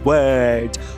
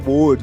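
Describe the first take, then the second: First: The vowel is a central 'er' sound. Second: The vowel sounds like an 'o' vowel. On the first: The speaker calls it right. "A pronúncia é, é word" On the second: The speaker calls it wrong. "Todo mundo fala que é word, word, tá errado. O fonema O não existe no inglês"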